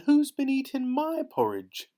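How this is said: The voice is gentle and soft. "in her gentle little voice"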